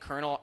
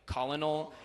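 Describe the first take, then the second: First: It is pronounced like the word kernel. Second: It is pronounced letter by letter, col-o-nel. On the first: This is how the word is normally said. The speaker calls it right. "instead of saying Colonel" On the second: This is how the word is read from its spelling. The speaker calls it wrong. "in my head I'll say like Colonel"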